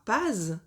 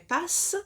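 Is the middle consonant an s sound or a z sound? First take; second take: z sound; s sound. First: The middle consonant is a buzzing z sound. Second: The middle consonant is a hissing s sound. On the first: The speaker calls it wrong. "Ça ne fera donc pas pase" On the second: The speaker calls it right. "mais passe, puisqu'il y a deux S"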